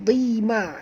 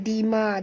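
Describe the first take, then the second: First: The first consonant is heavy and thick. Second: The first consonant is light and thin. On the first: The speaker calls it right. "huruf dad tebal" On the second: The speaker calls it wrong. "jangan baca dima"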